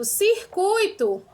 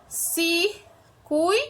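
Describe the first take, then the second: First: "circuito" said very slowly and clearly. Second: "circuito" broken into separate syllables, very slow. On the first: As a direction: stretch "circuito" out for the class. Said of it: "Olha outro exemplo". ("circuito" bem devagar) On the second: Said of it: "três sílabas". ("circuito" separado em sílabas) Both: Shown as a demonstration.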